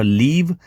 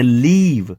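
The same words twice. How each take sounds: First: લીવ with a short i, as in live; short vowel. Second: લીવ with a long ee, as in leave; long vowel. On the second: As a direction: stretch the ee in લીવ. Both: Shown as a demonstration. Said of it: "બંનેમાં ફરક છે".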